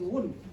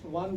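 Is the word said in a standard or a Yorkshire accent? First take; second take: Yorkshire; standard. First: The vowel is a rounded 'oo' sound. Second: The vowel is a short standard 'uh' sound.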